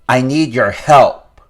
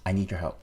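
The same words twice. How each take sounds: First: It sounds confrontational and demanding. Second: It sounds casual and friendly, as between equals. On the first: The listener is treated as an opponent. "So adversarial" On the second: The listener is treated as a partner. "And then an equal partnership"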